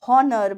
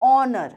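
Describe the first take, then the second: First: The word begins with an h sound. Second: The word begins with no h sound. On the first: The speaker calls it wrong. "it's not honor" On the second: The speaker calls it right. "but it's honor"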